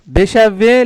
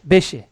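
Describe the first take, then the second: First: The word is said in its full form. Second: The word is said in a shortened form. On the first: The speaker calls it wrong. "लेकिन बेशावे नहीं बोलते" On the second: The speaker calls it right. "तो वो बेशे बोलते हैं डायरेक्ट"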